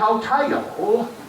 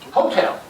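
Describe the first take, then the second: First: It is drawn out into extra syllables. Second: It is short with heavy emphasis.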